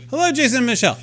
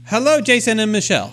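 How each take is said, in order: First: Put-on a second try at the South African accent, pitched higher; a bad South African accent, high and sing-song. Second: High clipped South African greeting voice; a mock South African accent, pitched up. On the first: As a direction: redo the South African kiosk greeting, higher. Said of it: "I can't do a South African accent to save my life". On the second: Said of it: "it's not British, maybe it's South African".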